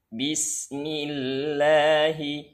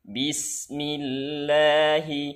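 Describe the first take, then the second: Both takes have the same delivery.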